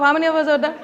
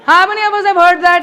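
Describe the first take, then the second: First: Said in the usual way. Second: Louder repeated question. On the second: Shown as a demonstration. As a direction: HAVE hit loud in "How many of us have heard that?".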